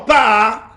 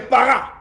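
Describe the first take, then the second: First: The word is clipped, with the accent on 'ar'. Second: The word is said with two full syllables. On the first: Beautiful or glorified. "lorsque je change l'intonation en par" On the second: Be fruitful. "Soyez fécond là, qui est para"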